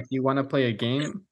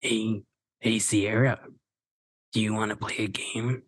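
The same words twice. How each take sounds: First: Lightly voiced low killer line; a hint of the Scream caller; Ghostface voice. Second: Low, quiet menacing phone voice; creepy killer calling on the phone; Ghostface voice. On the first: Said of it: "is it Scream where they're like". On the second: Acted. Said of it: "Should I try doing the Ghostface voice?".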